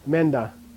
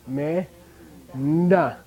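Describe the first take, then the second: First: The two syllables run together without a pause. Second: The two syllables are split by a pause.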